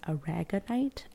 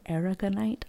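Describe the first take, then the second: First: "aragonite" said as uh-RAG-uh-nite; stress on second syllable. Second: "aragonite" said as AIR-uh-guh-nite; stress on first syllable. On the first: Reader unsure how to pronounce the stone, "aragonite" as uh-RAG-uh-nite. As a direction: hit RAG in "aragonite", short first vowel. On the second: Reader trying another emphasis, "aragonite" as AIR-uh-guh-nite. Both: Shown as a demonstration. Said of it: "not quite sure where the emphasis goes".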